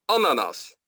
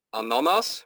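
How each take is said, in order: First: "ananas" with the stress on the first A; AN-anas, front-stressed and falling; correct stress. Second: "ananas" with misplaced stress, off the first syllable; "ananas" said wrongly with a late, rising stress. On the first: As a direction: hit the first syllable of "ananas", then fall. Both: Shown as a demonstration. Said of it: "Dus dat is de klemtoon".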